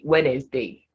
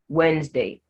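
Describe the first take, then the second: First: The word has three syllables. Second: The word has two syllables. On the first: The speaker calls it wrong. "don't say Wednesday" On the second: The speaker calls it right. "This word has just two syllables"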